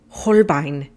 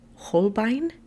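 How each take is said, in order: First: It is said with a strong German accent. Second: It is said with a plain English accent.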